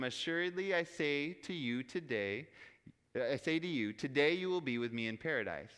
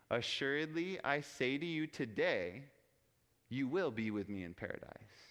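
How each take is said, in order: First: Group "today" with "you will be with me in paradise"; comma before today. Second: "I say to you today" as one group, then a pause; comma after today. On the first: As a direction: pause after "I say to you", then "today you will be with me". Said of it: "by placing the comma before the word today". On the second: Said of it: "if you put the comma after the word today". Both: Shown as a demonstration.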